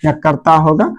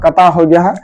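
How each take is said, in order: First: कर्ता said with a clear r, "karta"; correct pronunciation. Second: कता said without the r, as "kata"; wrong pronunciation. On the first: (कर्ता, साफ़ र के साथ "कर्ता") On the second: (कता, र छोड़कर "कता") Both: Shown as a demonstration. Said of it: "कर्ता मेरा गलत हो गया है".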